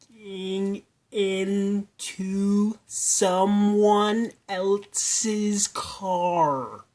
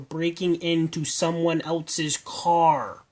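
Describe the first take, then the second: First: The phrase is spoken slowly and deliberately. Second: The phrase is spoken at a normal pace.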